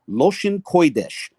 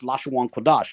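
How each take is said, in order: First: The vowels follow an Ashkenazi, Yiddish-like pronunciation. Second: The vowels follow a modern Israeli pronunciation. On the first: "the Yiddish approach to the same Hebrew phrase" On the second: "when they apply that system of pronunciation"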